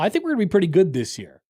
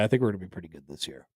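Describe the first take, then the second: First: It is said in a bold, confident way. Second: It is said in a flat, subdued way. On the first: Others should watch out for the team. "Hey, people need to watch out now" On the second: The speaker is only mildly hopeful. "he was maybe overly subdued"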